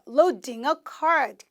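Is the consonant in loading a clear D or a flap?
clear D. The middle consonant is a clear D sound. "영국 분들은 loading, D 사운드가 그대로 들려요"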